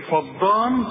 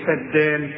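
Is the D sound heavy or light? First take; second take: heavy; light. First: The D sound is heavy and thick. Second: The D sound is light and thin. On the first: The speaker calls it wrong. "هتقول لي ايه فضان" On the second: The speaker calls it right. "الدال الدال والمد بتاعها مرقق"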